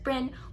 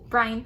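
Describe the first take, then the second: First: The name is said as one short syllable. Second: The name is said with two syllables. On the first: The speaker calls it wrong. "I keep wanting to pronounce it Bryn" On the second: The speaker calls it right. "there's an E there. It's gotta be Bryan"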